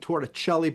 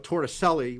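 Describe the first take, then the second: First: The ending is said with a ch sound. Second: The ending is said with an s sound. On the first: This is the proper Italian way of saying it. The speaker calls it wrong. "some people were saying Torricelli, but no" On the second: This is the local New Jersey way of saying it. The speaker calls it right. "we Jerseyfy it. It just becomes Selly"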